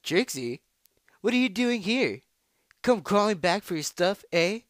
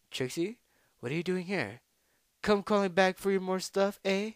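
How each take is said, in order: First: Loud, high, taunting challenger; full-voiced jeer at a beaten rival; brash rival voice. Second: Tentatively pitched-up taunting challenger; botched rival voice. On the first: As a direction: call out a mocking greeting, high and forceful. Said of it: "try that one more time". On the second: Acted. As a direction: try out a higher voice for the rival. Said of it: "That was a horrible voice".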